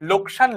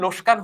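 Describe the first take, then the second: First: The k sound comes before the s. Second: The s sound comes before the k. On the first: The speaker calls it right. "লোকসান লোসকান হয়েছে" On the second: The speaker calls it wrong. "লোকসান লোসকান হয়েছে"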